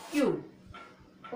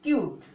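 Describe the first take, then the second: First: cute stretched very slowly, kyooot; very slow demo. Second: Said in the usual way. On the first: Shown as a demonstration. Teacher repeats the word slowly for students. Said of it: "क्या पढ़ेंगे?". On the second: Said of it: "जिसको क्या पढ़ेंगे?".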